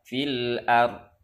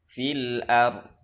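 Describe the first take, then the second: The two takes are said the same way.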